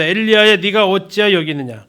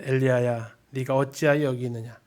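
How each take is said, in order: First: 혼내는 하나님의 목소리; scolding God. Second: Softer, gentle coaxing voice; 다독이는 하나님의 목소리; soothing God. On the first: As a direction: call him out sharply like a stern father. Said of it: "삼 번 혼내는 목소리". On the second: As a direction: coax him out like a comforting father. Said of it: "일 번 다독이는 목소리". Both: Acted.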